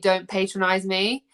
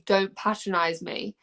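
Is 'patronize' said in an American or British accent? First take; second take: American; British. First: It is said in an American English accent. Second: It is said in a British English accent. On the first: "And for you, it would be" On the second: "for me, it would be"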